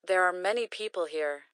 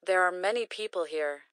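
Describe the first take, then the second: No difference in how they are said.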